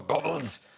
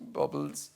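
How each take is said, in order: First: It is said in an angry tone. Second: It is said in a sad tone.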